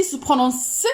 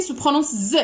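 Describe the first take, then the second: First: S as the bare unvoiced "sss" sound; S as hissed sound. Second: Z as the bare voiced "zzz" sound; Z as buzzed sound. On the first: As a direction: sound out S, not its letter name. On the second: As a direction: sound out Z, not its letter name. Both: Shown as a demonstration. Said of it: "ici se prononce".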